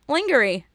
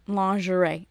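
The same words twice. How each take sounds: First: Lingerie misread as "LING-ger-ee", high and loud; mocked mispronunciation. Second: Lingerie said "lahn-zhuh-RAY"; French pronunciation. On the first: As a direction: say lingerie with a hard g and an "ee" ending. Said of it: "never hear the word lingerie". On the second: Shown as a demonstration. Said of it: "say it like it's French".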